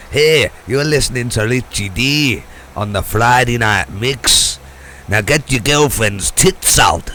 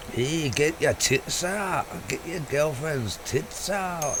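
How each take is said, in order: First: Loud hammed-up Scottish DJ jingle; mock Scottish accent. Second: Slow, higher mock Scottish drawl; a bad Scottish jock accent, said slowly and higher; a Scottish accent gone wrong. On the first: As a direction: bellow it in a bad Scottish jock accent. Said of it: "in a Scottish jock accent". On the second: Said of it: "the worst Indian Scottish accent I've ever heard".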